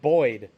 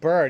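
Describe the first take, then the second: First: The vowel sounds like 'oy'. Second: The vowel sounds like 'er'. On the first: "He said Boyd" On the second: "the way this kid pronounced bird"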